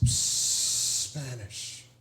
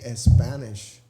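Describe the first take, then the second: First: The word starts directly with its first consonant. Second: An extra vowel sound comes before the word. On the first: The speaker calls it right. "Let's do this" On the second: The speaker calls it wrong. "you don't say a Spanish"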